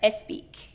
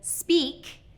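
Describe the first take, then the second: First: An extra vowel is added before the S. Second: The word starts directly with the S sound. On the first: The speaker calls it wrong. "adding a vowel sound in front of the initial S blend" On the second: The speaker calls it right. "instead of speak"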